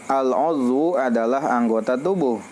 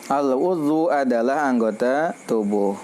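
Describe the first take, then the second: The two takes are said the same way.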